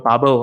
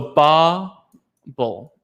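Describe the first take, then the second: First: The stress is on the second syllable. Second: The stress is on the first syllable.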